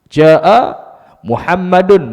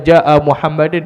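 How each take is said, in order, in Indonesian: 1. Nama itu berakhir dengan vokal u ditambah n. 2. Nama itu berakhir dengan vokal i ditambah n. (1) "mesti baca dengan baris dhammah" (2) "Tuan tak boleh baca"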